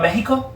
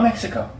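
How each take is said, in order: First: It is said with a Spanish-style pronunciation. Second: It is said with a plain English pronunciation. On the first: The speaker calls it wrong. "do you call it" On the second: The speaker calls it right. "No, you call it"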